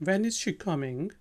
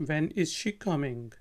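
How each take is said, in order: No difference in how they are said.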